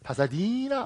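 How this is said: The name is said with an American accent. The listener understood it. The speaker calls it right. "아주 재수없게 발음했습니다"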